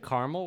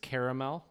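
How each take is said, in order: First: The word is said with two syllables. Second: The word is said with three syllables. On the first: "We say caramel with two syllables" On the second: "it's caramel with three syllables"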